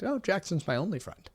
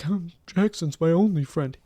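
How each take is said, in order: First: It is said in a plain, matter-of-fact way. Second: It is said in a sad, mopey way.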